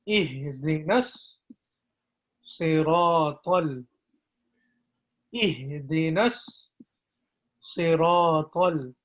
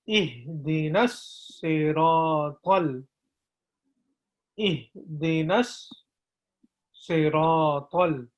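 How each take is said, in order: No difference in how they are said.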